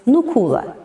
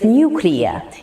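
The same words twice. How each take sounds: First: It is said like nu-cu-lar. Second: It is said like nu-clee-ar. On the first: The speaker calls it wrong. "many people says nuclear instead of" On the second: The speaker calls it right. "you should say nuclear"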